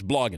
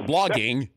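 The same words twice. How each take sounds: First: The ending is a plain 'n' sound. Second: The ending is a full 'ng' sound. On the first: The speaker calls it right. "it's street. It's it's street" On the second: The speaker calls it wrong.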